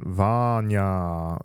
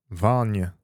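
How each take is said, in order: First: The first vowel is stretched, Yorkshire style. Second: The first vowel is fairly short.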